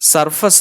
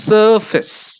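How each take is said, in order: First: The first vowel is not a long schwa. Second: The first vowel is a long schwa. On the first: The speaker calls it wrong. "Surface അല്ല" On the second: The speaker calls it right. "long a or a long burp"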